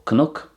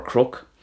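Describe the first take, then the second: First: Cnoc said as kuh-NUK; Irish pronunciation. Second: Crook with kr instead of kn; variant pronunciation. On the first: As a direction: say cnoc with the n sounded after k. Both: Shown as a demonstration. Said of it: "it could be pronounced crook as well".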